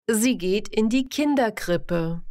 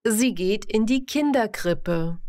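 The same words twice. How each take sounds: The two takes are said the same way.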